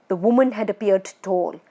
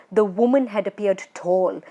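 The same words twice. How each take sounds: The two takes are said the same way.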